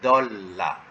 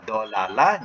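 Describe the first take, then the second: First: The two l sounds merge into one double sound. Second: The two l sounds are split by a vowel. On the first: This is the actual used form. "Yang betul dalam tulisan tak boleh dolalah. Dolla" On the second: This is the underlying pattern form. "itu semasa dia mengikut wazan"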